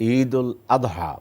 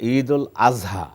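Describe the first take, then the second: First: The middle consonant of Adha is a d sound. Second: The middle consonant of Adha is a z sound. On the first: This is the Arabic pronunciation. "যদি আরবি pronunciation এ বলি।" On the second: This is the common Persian-derived pronunciation. "এটা প্রচলিত ফার্সি pronunciation এ বলেছি।"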